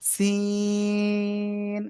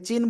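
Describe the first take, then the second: First: The word begins with an s sound. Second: The word begins with a ch sound. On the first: The speaker calls it right. "কিন্তু এটা এটা হলো সিন।" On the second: The speaker calls it wrong. "অনেকে কিন্তু চায়নার যে স- চীন বলে, ওই চীন বলেন, কিন্তু চীন না"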